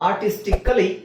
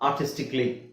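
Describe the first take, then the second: First: The vowel before the final 'ly' is sounded. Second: The vowel before the final 'ly' is dropped. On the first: "ಅಂತ ಹೇಳೋದನ್ನ" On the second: "ಅಂತ ಹೇಳ್ಬೋದು"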